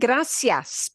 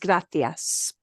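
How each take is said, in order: First: The middle consonant sounds like s. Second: The middle consonant sounds like th. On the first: This is the Latin American pronunciation. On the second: This is the pronunciation used in Spain.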